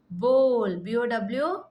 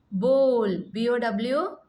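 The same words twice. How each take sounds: The two takes are said the same way.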